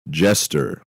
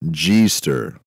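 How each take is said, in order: First: The first vowel is short, as in 'jet'. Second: The first syllable sounds like the letter G. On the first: The speaker calls it right. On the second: The speaker calls it wrong.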